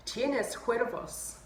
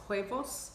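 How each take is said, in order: First: Huevos with a rolled R; wrong Spanish. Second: Huevos with no rolled R; corrected Spanish. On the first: Retold or imitated. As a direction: roll the R in huevos. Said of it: "it turns out I said huevos wrong". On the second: Shown as a demonstration. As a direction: huevos said plainly without the trill. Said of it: "don't roll the R".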